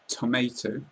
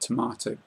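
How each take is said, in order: First: It is said with an American accent. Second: It is said with a British accent. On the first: "In America, people might pronounce this tomato" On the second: "we normally pronounce it tomato in the U K"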